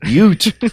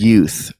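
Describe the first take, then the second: First: The word ends in a plain t sound. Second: The word ends in a clear th sound. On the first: "we sort of recreated that scene from My Cousin Vinny" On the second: "I guess it worked that time"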